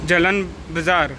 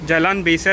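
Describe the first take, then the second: First: The second word is said as 'bazaar'. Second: The second word is said as 'besar'. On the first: This is how local people say it. "तिकडे लोक प्रोनाऊन्स करतात जलन बाजार" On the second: This is the actual name. "Jalan बेसर ॲक्च्युली आहे"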